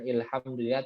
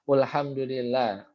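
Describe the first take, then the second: First: The word begins with the vowel i. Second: The word begins with the vowel u. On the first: "bukan ilhamdulillah" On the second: "atau ulhum ulhamdulillah"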